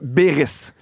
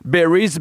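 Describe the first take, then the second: First: The name is said with a French pronunciation. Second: The name sounds like the English word berries. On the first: The speaker calls it right. "ça se dit Béris. Vraiment francophone" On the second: The speaker calls it wrong. "je me trompe tout le temps"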